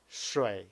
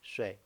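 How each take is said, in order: First: The third tone is long and fully dipping. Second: The third tone is short and not drawn out. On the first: "if I want to emphasize this third tone" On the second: "we speak the word not so long, so we only say"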